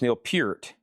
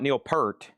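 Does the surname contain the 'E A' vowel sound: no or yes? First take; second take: yes; no. First: The surname is said with the 'E A' vowel. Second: The surname is said without the 'E A' vowel. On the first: The speaker calls it right. "You kind of put that E A sound in there" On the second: The speaker calls it wrong. "it's not Neil Peart"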